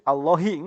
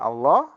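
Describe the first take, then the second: First: The word ends with a sounded final vowel. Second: The word ends without any final vowel. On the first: The speaker calls it wrong. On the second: The speaker calls it right. "Jadi wakof"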